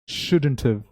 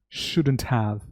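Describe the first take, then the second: First: The word 'have' is reduced and run together. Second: The word 'have' is pronounced fully and clearly.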